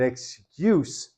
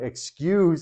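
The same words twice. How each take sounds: First: It is pronounced as the noun form. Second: It is pronounced as the verb form. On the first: It means a reason given for something. "excuse as a noun" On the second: It means to forgive someone. "excuse as a verb"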